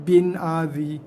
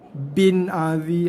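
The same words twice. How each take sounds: Both takes have the same delivery.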